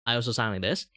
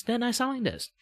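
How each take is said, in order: First: Slight Malaysian English lilt; a light touch of Malaysian English; casual Malaysian English. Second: Much higher, bright anime-style VTuber voice. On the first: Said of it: "when I speak a very Malaysian English". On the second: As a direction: jump up into the raised VTuber voice. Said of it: "this currently voice". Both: Shown as a demonstration.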